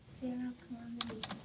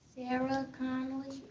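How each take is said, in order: First: It is said quietly. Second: It is said loudly.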